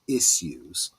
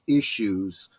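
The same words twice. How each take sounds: First: The word is said with a British accent. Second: The word is said with an American accent. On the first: The speaker calls it right. "I should say it in the British" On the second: The speaker calls it wrong. "the way the Americans say it, is actually slurring your words"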